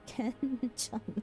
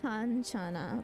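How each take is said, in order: First: The first vowel sounds like 'eh'. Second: The first vowel sounds like 'ah'. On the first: "I'm slowly starting to pronounce it as kenchana" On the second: "this is kanchana"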